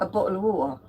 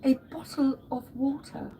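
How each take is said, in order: First: It is said in a Cockney accent. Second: It is said in a Queen's English accent.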